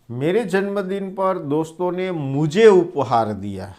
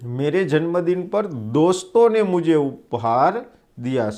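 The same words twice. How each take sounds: First: The stress is on मुझे. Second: The stress is on दोस्तों.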